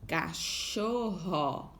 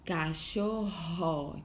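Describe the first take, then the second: First: Cachorro said very slowly; slow, stretched. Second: Cachorro slowly, ending held; slow, stretched. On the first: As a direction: draw out every syllable of cachorro. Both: Shown as a demonstration. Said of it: "termina com esse som".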